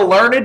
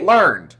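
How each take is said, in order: First: The word is said with two syllables. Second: The word is said with one syllable. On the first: "I never say learned like that" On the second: "I always say learned or learnt"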